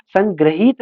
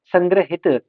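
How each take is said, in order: First: संग्रहित with a long "hee": "sang-graheet"; wrong vowel length. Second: संग्रहित with short "i": "sangra-hit"; corrected short vowel. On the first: Teacher repeating the error, संग्रहित as "sang-graheet". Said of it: "संग्रहित नहीं". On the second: Teacher repeating the correction, संग्रहित as "sangra-hit". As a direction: keep the last vowel of संग्रहित brief. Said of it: "संग्रहित नहीं, संग्रहित". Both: Shown as a demonstration.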